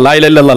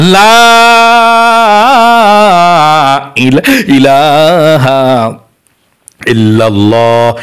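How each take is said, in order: First: The opening 'la' is kept short, not stretched. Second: The opening 'la' is drawn out long. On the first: Reading it this way earns no reward. The speaker calls it wrong. "এভাবে পড়লে আপনার সওয়াব হবে না" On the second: This is the proper way to recite it. The speaker calls it right. "লায়ের মধ্যে টান দিতে হবে এভাবে"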